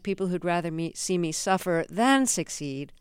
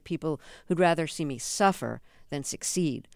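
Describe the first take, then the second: First: The word 'than' is stressed. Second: The word 'than' is not stressed.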